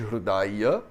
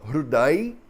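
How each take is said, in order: First: The word ends with its final vowel pronounced. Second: The word ends without its final vowel. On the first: This is the theoretical textbook form. "em vez de Hridaya" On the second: This is how it is said in everyday practice in India. "A gente fala Hriday"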